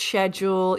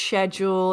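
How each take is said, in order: First: It is said with a British pronunciation. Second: It is said with a British pronunciation.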